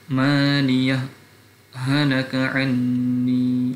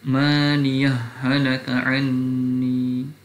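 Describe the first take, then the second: First: A brief pause follows 'maliyah', h kept distinct. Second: The two h sounds merge without any pause. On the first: "izhar bis saktah" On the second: "wajib idgham"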